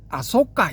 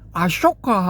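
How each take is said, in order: First: The name is said with s and tense kk. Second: The name is said with sh and aspirated k. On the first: It follows the Pali reading of the name. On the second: It follows the Sanskrit reading of the name.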